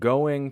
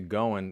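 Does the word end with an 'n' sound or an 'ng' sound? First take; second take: ng; n. First: The word ends with a full 'ng' sound. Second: The word ends with a plain 'n' sound.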